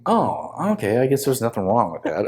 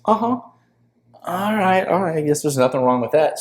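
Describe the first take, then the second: First: Said in the usual way. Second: High, teasing echo of his own excuse; a hammed-up spirit playfully mimicking him; mock high ayahuasca voice. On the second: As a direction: parrot his words back in a high mocking voice. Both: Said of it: "And she goes".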